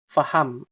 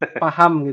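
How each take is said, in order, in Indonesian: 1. Kata ini dimulai dengan bunyi f. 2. Kata ini dimulai dengan bunyi p. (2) "Pakai P"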